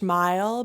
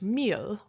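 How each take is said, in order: First: The vowel sounds like the one in 'mile'. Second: The vowel sounds like the one in 'meal'. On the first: The speaker calls it wrong. "I should have been saying not Swedish mile" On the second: The speaker calls it right. "which is how you pronounce it in Swedish"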